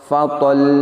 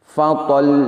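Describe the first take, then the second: Both takes have the same delivery.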